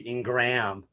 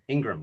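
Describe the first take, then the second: First: The name is said with strong, forceful emphasis. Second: The name is said softly with light emphasis. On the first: "Strong form would be Ingram"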